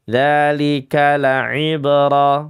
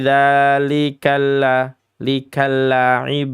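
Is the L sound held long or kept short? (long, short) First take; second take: short; long. First: The L sound is short and single. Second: The L sound is dragged out and doubled. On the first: The speaker calls it right. "biasa begitu saja" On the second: The speaker calls it wrong. "kadang ada yang menyeret-nyeretnya"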